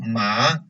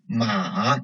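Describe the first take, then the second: First: It is said with the Mandarin second tone. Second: It is said with the Mandarin third tone. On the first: It means sesame. "second tone ma means sesame" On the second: It means a horse. "third tone ma means a horse"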